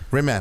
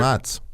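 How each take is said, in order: First: The name ends with a hard k sound. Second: The name ends with a ts sound. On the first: The speaker calls it wrong. "People are always like, they're like Rimac" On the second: The speaker calls it right. "I'm like, no"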